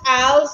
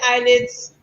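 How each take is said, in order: First: It sounds like 'aisles', with no 'd' sound. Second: It sounds like 'eyelids', with a 'd' sound. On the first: The speaker's own way of saying it. "I call it aisles" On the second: Other people's way of saying it. "some people say eyelids"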